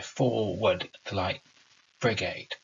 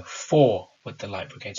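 First: FORWARD hit hard, slow and spaced; stressed rhythm. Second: "Forward" punched, the line driven hard; overemphasized rhythm. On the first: Teacher reading the poem to the class, slow stressed rhythm. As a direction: read it slowly, leaning on FORWARD. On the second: Teacher overemphasizing the line for impact, punchy beat. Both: Shown as a demonstration. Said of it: "I'm overemphasizing for impact there".

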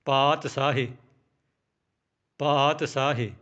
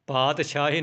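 First: ਪਾਤਸ਼ਾਹੀ as "paat-saahi", clean s; s without dot. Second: ਪਾਤਸ਼ਾਹੀ as "paat-shaahi", with sh. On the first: Teacher modelling it for learners, s sound in ਪਾਤਸ਼ਾਹੀ. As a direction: stretch paat, then s in ਪਾਤਸ਼ਾਹੀ. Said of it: "ਇਸ ਤਰ੍ਹਾਂ ਬੋਲਣਾ ਹੈ". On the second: Teacher warning learners off a mistake, sh in ਪਾਤਸ਼ਾਹੀ. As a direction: put a hushing sh into ਪਾਤਸ਼ਾਹੀ. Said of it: "ਪਾਤਸ਼ਾਹੀ ਨਹੀਂ ਬੋਲਣਾ". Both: Shown as a demonstration.

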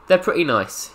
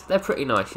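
First: "They're pretty nice" lifted higher, mock cute; "They're pretty nice" in a higher, cutesy tone. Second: Said in the usual way. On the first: Shown as a demonstration. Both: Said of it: "cutesy bootsies".

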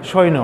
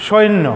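First: সৈন্য said with a single n, as সোইন; wrong pronunciation. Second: সৈন্য said with a doubled n, as শোইন্ন; correct pronunciation. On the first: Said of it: "সৈন্য কিন্তু নয়". (সৈন্য ভুলভাবে এক ন দিয়ে) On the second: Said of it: "শব্দের উচ্চারণটা কিন্তু সৈন্য". (সৈন্য দ্বিত্ব ন দিয়ে, "শোইন্ন") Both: Shown as a demonstration.

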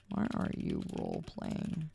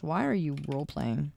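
First: Whispered repeat of the question; whispered aside in disbelief. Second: Said in the usual way. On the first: Real, not acted. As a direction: drop to a whisper, half to yourself. Repeats the question under breath.

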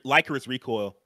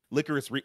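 First: "Licorice" with a long i, LIKE-; "Licorice" as LIKE-uh-riss; long-i pronunciation. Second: "Licorice" with a short i, LICK-; "Licorice" begun as LICK, then broken off; short-i pronunciation. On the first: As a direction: say "Licorice" starting like the word "like". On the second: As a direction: say "Licorice" like the candy, starting LICK. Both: Real, not acted. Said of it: "Is it Licorice or Licor".

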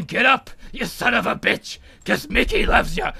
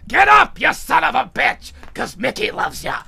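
First: Put-on old trainer's urging, held back; Mick. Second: Put-on shouted, high opening, settling into old trainer's voice; Mick. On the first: Mick promises Rocky his voice will urge him, contained impression. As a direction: put on the mentor's voice without shouting. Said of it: "I want you to hear my voice". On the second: Rocky hears his dead mentor urging him up, shouted impression. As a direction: bellow the first words as the remembered mentor. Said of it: "remembers the voice of his old mentor".

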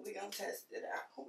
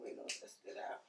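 First: Said in the usual way. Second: Whispered repeat; whispering. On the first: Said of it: "repeated, second whispered". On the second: Real, not acted. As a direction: drop to a whisper. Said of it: "whispered repeat".

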